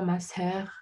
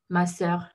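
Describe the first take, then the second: First: The s comes with an extra puff of breath. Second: The s is crisp with no breath. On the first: The speaker calls it wrong. "on ne dit pas ma sœur" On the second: The speaker calls it right. "un S euh, sans euh, expiration"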